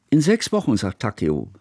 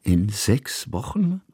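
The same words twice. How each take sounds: First: Interjecting. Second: "In sechs Wochen" drawn out slowly, rising on "Wochen"; questioning repetition. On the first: Hannaka cuts into the adults' talk about leaving, interjecting. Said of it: "warf Hannaka ein". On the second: Painter echoes the child's news, "In sechs Wochen" as a slow questioning repetition rising at the end. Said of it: "wiederholte Kusmin". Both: A narrator's reading.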